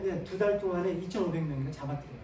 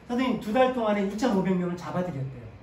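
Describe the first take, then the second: First: Said in the usual way. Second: Louder, hitting 달 in "두 달 동안에" with a falling stress; 두 달 louder, with 달 falling hard; emphatic repeat. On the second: Real, not acted. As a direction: repeat it louder so the class feels the number, leaning on 달.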